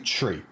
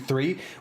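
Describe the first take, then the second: First: The word begins with a plain t sound. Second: The word begins with a th sound. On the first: "we say tree ... Like a tree that grows outside" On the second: "we have to really focus on saying it"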